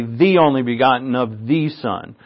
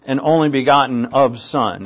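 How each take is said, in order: First: "the" given light weight before Son; stress on THE. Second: Said in the usual way. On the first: Shown as a demonstration. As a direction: mark "the" as the added word. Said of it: "It doesn't say". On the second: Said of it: "It doesn't say the only begotten of the Son".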